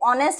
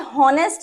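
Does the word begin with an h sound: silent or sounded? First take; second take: silent; sounded. First: The word begins with a vowel, h silent. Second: The word begins with a sounded h. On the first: The speaker calls it right. "ऑनेस्ट बोलते हैं" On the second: The speaker calls it wrong. "आप इसे हॉनेस्ट नहीं बोलते"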